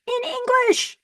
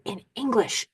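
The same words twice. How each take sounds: First: Much higher, amazed repeat; excited. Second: Said in the usual way. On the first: Real, not acted. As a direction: say it again, stunned and thrilled.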